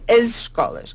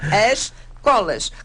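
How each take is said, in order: First: A z sound and the vowel before scolas are heard. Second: The es is dropped, so it sounds like colas. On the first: The speaker calls it right. "temos que pronunciar as escolas, com o som de Z" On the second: The speaker calls it wrong. "ouve-se na televisão as colas"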